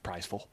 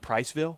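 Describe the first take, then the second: First: The ending is reduced to a short 'vul' sound. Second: The ending is a full 'ville' sound. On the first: This is how locals say it. "it's pronounced Priceville" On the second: This follows the spelling. "It is spelled Priceville"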